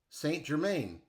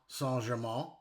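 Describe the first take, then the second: First: The name is said with an American pronunciation. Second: The name is said with an English pronunciation. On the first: "Americans might say" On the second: "English people might say"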